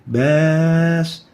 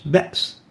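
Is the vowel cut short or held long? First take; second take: long; cut short. First: The vowel is held long and smooth. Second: The vowel is cut short and interrupted. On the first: The vowel has no hamza. "this is a vowel without a hamza" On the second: The vowel has a hamza. "an interrupted and shortened lengthening of the vowel"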